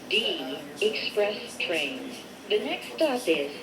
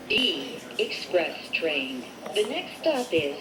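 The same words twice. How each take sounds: The two takes are said the same way.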